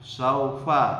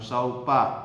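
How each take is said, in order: First: The middle consonant is an F sound. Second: The middle consonant is a P sound. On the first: The speaker calls it right. "saufa bukan saupa" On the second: The speaker calls it wrong. "bukan saupa"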